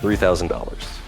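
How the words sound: The pitch falls at the end. The speaker is sure of the price. The speaker calls it right. "You sound sure"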